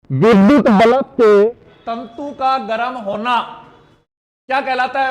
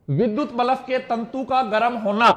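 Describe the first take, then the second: First: विद्युत bulb के projected loudly, then a pause; emphatic rereading. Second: Said in the usual way. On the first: Shown as a demonstration. Teacher rereads the quiz question to the class, loud and emphatic.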